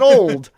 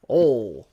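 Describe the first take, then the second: First: The final d sound is clearly pronounced. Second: The final d sound is dropped. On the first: The speaker calls it wrong. "Not old" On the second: The speaker calls it right. "O L apostrophe"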